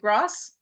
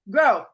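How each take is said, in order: First: The final S is pronounced. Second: The final S is silent. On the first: The speaker calls it wrong. "is it Gross?" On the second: The speaker calls it right. "Is it the silent S?"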